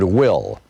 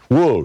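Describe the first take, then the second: First: The name has the short 'i' vowel. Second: The name has the rounded 'oo' vowel.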